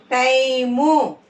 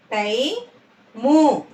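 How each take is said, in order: First: Said in the usual way. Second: "time" split, rising టై, then ము; "time" in two separate syllables. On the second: Shown as a demonstration. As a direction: slowly sound out "time" with a gap. Teacher sounds out syllables.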